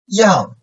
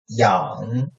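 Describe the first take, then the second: First: The pitch falls sharply from high to low. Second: The pitch dips low, then rises slightly.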